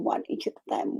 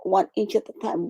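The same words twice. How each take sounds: First: Softer, almost whispered repeat; soft echo. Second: Said in the usual way. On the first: Real, not acted. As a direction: let the repeat fade to a hush.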